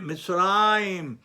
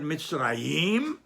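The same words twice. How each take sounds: First: Mitzrayim with a long, stressed RA, falling after; stress on next-to-last syllable. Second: Mitzrayim with the final YIM stressed and rising; stress on last syllable. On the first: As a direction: lean slowly on mitz-RA-yim in Mitzrayim. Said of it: "the syllable before the last". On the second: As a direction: push the stress to the end of Mitzrayim, mitz-ra-YIM. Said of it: "on the Mem on the last syllable". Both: Shown as a demonstration.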